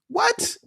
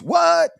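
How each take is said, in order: First: It is said in the speaker's natural voice. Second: It is said in an imitated rapper's voice.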